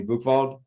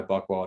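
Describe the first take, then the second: First: Buchwald with a German V for the W; German pronunciation. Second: Buchwald with an English W sound; American pronunciation. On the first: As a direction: say Buchwald as "book-vald". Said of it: "thought they were supposed to call me". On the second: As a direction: say Buchwald as "buck-wald". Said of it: "but in America". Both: Shown as a demonstration.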